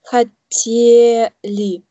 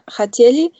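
First: The E vowel is drawn out long. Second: The E vowel is short and clipped. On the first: The speaker calls it right. "wenn man ein bisschen so mit das E ein bisschen so lang zieht, dann ist es richtig" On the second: The speaker calls it wrong. "so wie du das aussprichst, hört sich an wie ein Hotel"

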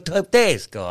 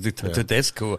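First: It is said with lively Italian-like temperament. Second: It is said with a flat, Romanian-like accent. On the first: The speaker calls it right. "mit mehr italienischem Temperament" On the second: The speaker calls it wrong. "Das klingt immer wie ein rumänischer Schiedsrichter"

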